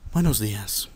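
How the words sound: It is said in a sad, downcast tone. "voy a utilizar un tono triste"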